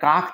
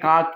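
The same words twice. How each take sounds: First: The word ends with a k sound. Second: The word ends with a g sound. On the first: "অঘোষ ব্যঞ্জন" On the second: "ঘোষ ব্যঞ্জনে পরিণত"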